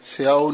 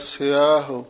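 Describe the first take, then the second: First: The final h sound is dropped. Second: The final h sound is clearly pronounced. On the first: The speaker calls it wrong. "ਨਹੀਂ ਕਹਿਣਾ" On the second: The speaker calls it right. "ਹਾਹਾ ਵੀ ਬੋਲਣਾ"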